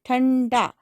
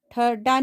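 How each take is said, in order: First: "ठंडा" with a nasal n before the d, a little raised; teacher gives students the right form "ठंडा" with nasal; correct nasal. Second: "ठड्डा" said with a doubled hard d and no nasal; teacher showing the wrong form "ठड्डा" without nasal; wrong word shown. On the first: सही उच्चारण "ठंडा" अनुस्वार के साथ. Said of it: "ठ के ऊपर अंग की आवाज आ रही है". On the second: गलत उच्चारण "ठड्डा" बिना अनुस्वार. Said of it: "ठड्डा नहीं होता है". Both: Shown as a demonstration.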